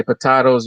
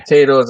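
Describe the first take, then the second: First: "potatoes" said as po-TAH-toes; broad-A pronunciation. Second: "potatoes" said as po-TAY-toes; long-A pronunciation. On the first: Co-host jokes about two pronunciations, "potatoes" said po-TAH-toes. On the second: Co-host jokes about two pronunciations, "potatoes" said po-TAY-toes. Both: Shown as a demonstration. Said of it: "I say potatoes".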